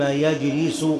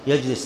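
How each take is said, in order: First: The verb ends with a final u vowel. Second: The verb ends with a final a vowel. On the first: Only the sitting in that place is forbidden. "تكون الجملة استئنافية" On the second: Doing both things together is forbidden. "يجلس بالنصب"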